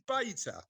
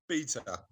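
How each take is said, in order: First: "beta" said as BAY-tuh; "beta" the American way, BAY-tuh; American pronunciation. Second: "Beta" said as BEE-tuh; "Beta" the British way, BEE-tuh; British pronunciation. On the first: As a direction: say "beta" with an ay in the first syllable. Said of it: "for the American pronou". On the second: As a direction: say "Beta" with a long ee in the first syllable. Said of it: "The British pronunciation of beta". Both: Shown as a demonstration.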